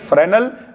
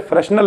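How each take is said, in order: First: No 's' sound is heard mid-word. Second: An 's' or 'sh' sound is heard mid-word. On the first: The speaker calls it right. "एस यहां पर silent है" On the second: The speaker calls it wrong. "इसे फ्रेशनल नहीं पढ़ेंगे"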